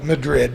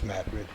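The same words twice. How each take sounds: First: Said the way non-locals pronounce the name. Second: Said the way locals pronounce the name. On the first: The reader is not from the area. The speaker calls it wrong. "And they call it Madrid, of course" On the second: This is how people from the area say it. The speaker calls it right. "we know it as Madrid"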